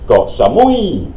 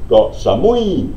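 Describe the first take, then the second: The two takes are said the same way.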